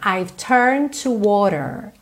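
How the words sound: The R sounds in 'turned' and 'water' are pronounced.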